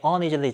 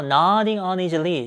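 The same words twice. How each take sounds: First: Said in the usual way. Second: Slow careful reading of "Nodding uneasily"; slow teacher read of "Nodding uneasily"; read slowly. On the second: Shown as a demonstration. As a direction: draw out "Nodding uneasily" word by word. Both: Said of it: "좀 이렇게 불편불쾌하게".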